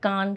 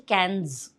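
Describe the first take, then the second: First: The word ends without any s sound. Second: The word ends with an audible s sound. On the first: The speaker calls it right. "it's okay" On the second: The speaker calls it wrong. "it sounds a little weird when you say cans"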